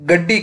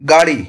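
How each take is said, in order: First: The middle consonant is long and doubled. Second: The middle consonant is short and single. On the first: This is the Khari Boli dialect form. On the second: This is the standard form.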